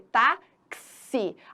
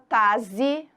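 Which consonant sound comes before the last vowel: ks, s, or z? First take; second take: ks; z. First: A ks sound comes before the last vowel. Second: A single z sound comes before the last vowel. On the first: The speaker calls it right. "a gente fala o quê? Táxi. Aquele X... corresponde a dois fonemas" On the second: The speaker calls it wrong. "ninguém fala taze"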